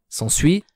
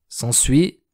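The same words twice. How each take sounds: Both takes have the same delivery.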